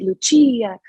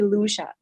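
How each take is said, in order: First: The name is pronounced the Italian way. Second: The name is pronounced the American way. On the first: "especially Italians, pronouncing it" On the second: "in the United States, people call me"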